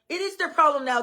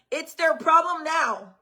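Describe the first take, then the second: First: It is their problem now, IS given its full weight; stress on IS. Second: Their problem now slowed and leaned on; stress on THEIR. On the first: Parent insisting to other parents it IS their problem, stressed. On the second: Parent telling other parents whose problem it is, stressed. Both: Real, not acted.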